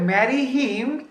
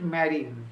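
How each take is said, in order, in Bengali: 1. him-এর শুরুর h উচ্চারিত হয়। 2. h টি বাদ যায়, শব্দ দুটি একসাথে জুড়ে যায়।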